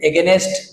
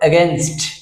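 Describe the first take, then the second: First: An extra vowel comes between n and st. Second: No vowel comes between n and st. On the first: The speaker calls it wrong. "যেটা বলি আমরা ভুল" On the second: The speaker calls it right. "Right pronunciation"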